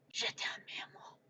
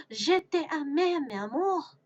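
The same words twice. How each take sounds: First: Very soft, breathy whisper; whispered love declaration. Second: Gasp, then high, swooning French; dramatic love declaration. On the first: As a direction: whisper sweet nothings in French. Same French love declaration, whispered. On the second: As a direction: declare love theatrically, pitched up. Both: Acted.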